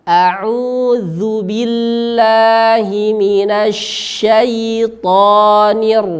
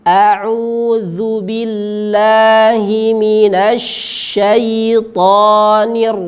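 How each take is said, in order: The two takes are said the same way.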